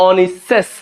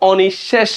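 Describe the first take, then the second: First: অনিঃশেষ said slowly as 'o-nis-ses'; 's' sound in অনিঃশেষ. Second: অনিঃশেষ said 'o-nish-shesh', with hushing sh; 'sh' sound in অনিঃশেষ. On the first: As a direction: swap every sh in অনিঃশেষ for a thin s. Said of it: "তিনটাই দন্ত স দিতাম". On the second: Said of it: "অনিঃশেষ বলতেছি সেজন্য তালব্য স". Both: Shown as a demonstration.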